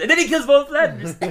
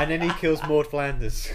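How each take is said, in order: First: Hammed-up eager line, much higher and louder; mock enthusiastic. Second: Bright, eager narration; enthusiastic. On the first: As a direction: overdo the enthusiasm as a parody. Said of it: "that wouldn't look natural". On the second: Acted. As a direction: say it with big enthusiasm. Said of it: "you said it so enthusiastic".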